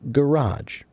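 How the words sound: It is pronounced the American way. "Americans say garage"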